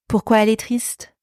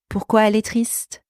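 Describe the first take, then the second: No difference in how they are said.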